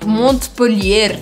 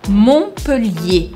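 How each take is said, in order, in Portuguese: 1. Os sons de T e R são pronunciados. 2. Os sons de T e R são silenciosos. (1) "Eu nunca poderia falar em francês Montpellier" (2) "a gente sempre faz desaparecer o T e o R no final"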